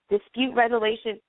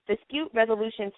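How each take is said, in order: Both takes have the same delivery.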